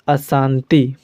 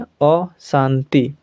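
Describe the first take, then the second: First: The word is said with Hindi pronunciation. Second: The word is said with Bengali pronunciation. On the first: "और हिंदी में अशांति" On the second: "और बंगाली में अशांति"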